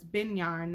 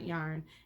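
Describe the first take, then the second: First: The word starts with an added B sound. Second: The word starts with a plain Y sound. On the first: A child's way of saying it. The speaker calls it wrong. "he puts a B in front of everything sometimes" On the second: The usual way of saying it. The speaker calls it right. "not yarn"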